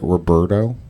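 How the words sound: The name is said with English-style sounds. Someone is getting the name wrong. The speaker calls it wrong. "That's not sexy. That's not exotic"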